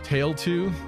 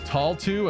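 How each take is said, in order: First: The first syllable sounds like 'tail'. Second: The first syllable sounds like 'tall'. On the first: This is the pronunciation the speaker knew. "I only know Tail two" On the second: This is the game's official pronunciation. "Who the fuck is Tall two?"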